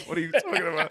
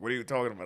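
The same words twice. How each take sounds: First: Louder, higher, breaking into a laugh; incredulous laughing repeat; laughing disbelief. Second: Said in the usual way. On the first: Retold or imitated. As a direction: laugh through the confused question. Repeats his confused reply laughing.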